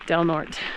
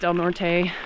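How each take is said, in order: First: The name is said with English-style sounds. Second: The name is said with Spanish-style sounds. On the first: The speaker calls it right. "It's pronounced" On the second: The speaker calls it wrong. "Not pronounced"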